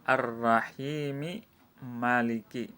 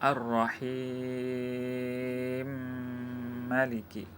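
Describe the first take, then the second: First: The vowel before the second m is pronounced. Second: The two m sounds merge into one.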